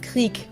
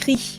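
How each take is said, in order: First: The final consonant is hard. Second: The final consonant is soft.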